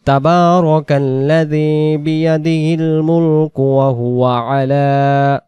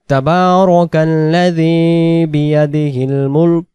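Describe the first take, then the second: First: মুলক flows straight into ওয়া হুয়া আলা without a breath; run on, no stop. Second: Stop at মুলক. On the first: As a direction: hold the breath past মুলক. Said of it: "দমটা ধরে যায়". (মুলক-এ না থেমে টানা পড়া) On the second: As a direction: recite তাবারাকাল্লাযী বিয়াদিহিল মুলক and release breath on মুলক. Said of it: "দমটা ছেড়ে দিতে চাই". (মুলক-এ দম ছেড়ে থামা) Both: Shown as a demonstration.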